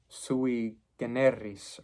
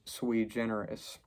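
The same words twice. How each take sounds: First: It is pronounced in a Latin-style way. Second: It is pronounced in an anglicized way. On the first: "to use a Latin term" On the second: "English speakers often say"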